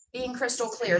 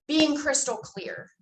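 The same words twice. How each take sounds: First: Said in the usual way. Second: "being crystal clear" said slowly, a little higher, each word landed; slow emphatic. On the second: Shown as a demonstration. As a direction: spell out "crystal clear" deliberately, with conviction. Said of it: "speak with emphasis and conviction".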